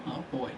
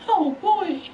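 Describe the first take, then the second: First: Muted dismay. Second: Rising alarm. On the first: Racer seeing only four to go, muted dismay. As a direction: say it under your breath, pitched down. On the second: Racer seeing only four to go, high-pitched alarm. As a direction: squeal it out in playful panic. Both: Real, not acted. Dismay at laps left, escalating.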